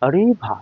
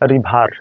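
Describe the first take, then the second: First: The final r sound is dropped. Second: The final r sound is pronounced. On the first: "ব্রিটিশরা UK ওরা বলে রিভা" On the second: "আমেরিকানদের ক্ষেত্রে রিভার"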